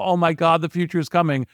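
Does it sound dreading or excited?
dreading. It is said with dread and gloom.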